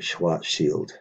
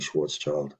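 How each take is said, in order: First: The name is pronounced the German way. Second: The name is pronounced the anglicized way. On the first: The speaker calls it right. "a more correct pronunciation for the German name" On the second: The speaker calls it wrong. "instead of saying Schwarzschild"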